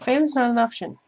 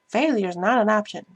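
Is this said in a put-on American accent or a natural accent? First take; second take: natural; American. First: It is said in the speaker's natural accent. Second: It is said in a put-on American accent.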